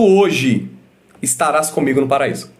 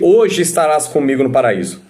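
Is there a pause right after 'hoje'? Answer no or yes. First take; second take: yes; no. First: There is a pause after 'hoje'. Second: There is no pause after 'hoje'. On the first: The promise is only made that day, not fulfilled then. The speaker calls it right. "Jesus ele disse assim, ó" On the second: The promise is for that same day. The speaker calls it wrong. "Jesus não disse para ele"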